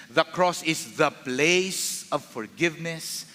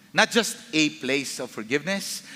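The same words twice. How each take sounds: First: Slow, weighty "the" before "place"; "the" stretched out, measured pace; stress on THE. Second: "a" set up for contrast, rising end; "a" as merely one of many; stress on A. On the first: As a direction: lean long on "the" as the one and only. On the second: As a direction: lean on "a", leave "forgiveness" hanging upward. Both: Shown as a demonstration. Contrasts a place with the place.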